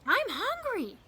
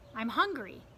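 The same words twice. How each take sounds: First: It is yelled very loudly. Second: It is said at a normal volume.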